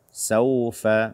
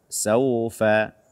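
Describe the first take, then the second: The two takes are said the same way.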